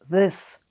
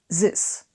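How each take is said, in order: First: The word begins with a th sound. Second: The word begins with a z sound. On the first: "you replace this with this" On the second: "Replace all the T H's, the th, with a Z"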